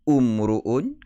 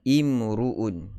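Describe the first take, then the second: First: The word begins with a 'u' vowel. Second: The word begins with an 'i' vowel. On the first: The speaker calls it wrong. "Adakah kita nak baca dengan umruun kerana ra itu berbaris di hadapan? Tentu sekali uh, tidak dibaca begitu" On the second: The speaker calls it right. "kita akan baca dengan baris bawah"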